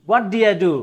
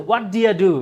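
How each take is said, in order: Both takes have the same delivery.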